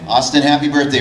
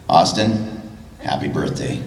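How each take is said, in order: First: It is said in his own natural voice. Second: It is said in Tom's character voice.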